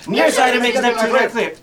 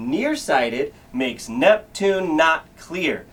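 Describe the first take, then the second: First: It is said as fast as possible. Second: It is said at a normal speed.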